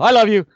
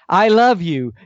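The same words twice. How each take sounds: First: It is said flatly, with no emotion. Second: It is said warmly, with emotion behind it. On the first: The speaker calls it wrong. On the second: The speaker calls it right.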